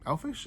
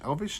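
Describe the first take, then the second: First: The middle consonant is an F sound. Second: The middle consonant is a V sound. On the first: The speaker calls it wrong. "not elfish" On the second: The speaker calls it right. "elvish, not elfish"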